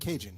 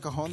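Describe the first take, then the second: First: The word sounds like the English word Cajun. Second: The word is said the Spanish way, ca-HON. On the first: Someone refuses to try the foreign pronunciation. The speaker calls it wrong. "They'll be like, Cajun" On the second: This is the word's proper foreign pronunciation. The speaker calls it right. "it's called a cajon"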